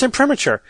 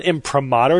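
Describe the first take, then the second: First: Imprimatur as im-PRIM-uh-cher, higher. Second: Imprimatur as im-pruh-MAH-ter. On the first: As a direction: end imprimatur like "-ature". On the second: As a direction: stress "MAH" in imprimatur, as if rejecting it. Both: Retold or imitated. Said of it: "It's not imprimatur".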